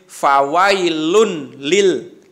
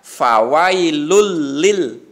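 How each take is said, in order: First: A clear n sound is heard before the l. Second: The n is dropped and merges into the l. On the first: The speaker calls it wrong. "Jadi tidak boleh fawailun lil, gitu tidak boleh" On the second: The speaker calls it right. "Jadi yang betul adalah"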